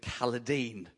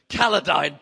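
First: The name is said with a softer, lighter sound. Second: The name is said with a heavier, weightier sound. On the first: The name sounds too gentle for scolding someone. "It felt a lot softer" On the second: The name sounds stern enough for scolding someone. "had so much more weight to it"

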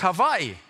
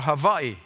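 First: The word begins with a V sound. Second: The word begins with a W sound. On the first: "Whenever you see W, it's a V" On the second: "is it Hawaii or Hawaii?"

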